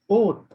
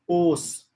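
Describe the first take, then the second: First: The word ends in a t sound. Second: The word ends in an s sound. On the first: The speaker calls it right. "it will be pronounced as oath" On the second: The speaker calls it wrong. "cloth will not be pronounced as os"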